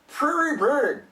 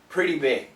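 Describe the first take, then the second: First: The middle consonant is an R sound. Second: The middle consonant is a soft D sound. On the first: The speaker calls it wrong. "If it's an R" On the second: The speaker calls it right. "It's a D"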